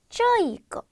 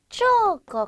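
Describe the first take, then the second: First: An added 'i' sound follows the first vowel. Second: The first syllable has a simple vowel. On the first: This is the casual conversational form. "이를 하나 넣어서 쪼이거 이렇게 읽게 되는 경우가 많아요" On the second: This is the standard form. "쪼거 같은 경우도"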